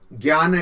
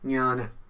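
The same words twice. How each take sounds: First: The word begins with a hard g sound. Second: The word begins without a hard g sound. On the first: The speaker calls it wrong. "बहुत सारे लोग इस ज्ञान को ज्ञान कहते हैं, वो ज्ञान नहीं है, वहां ग नहीं है" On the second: The speaker calls it right. "ये संस्कृत उच्चारण है"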